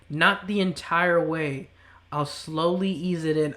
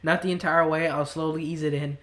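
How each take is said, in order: First: It is read at a slower pace. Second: It is read at a fast pace.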